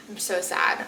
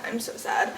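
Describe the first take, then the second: First: Said in the usual way. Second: Whispered sadly to herself. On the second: Real, not acted. Vlogger whispering to viewers about her dead truck, sad whisper.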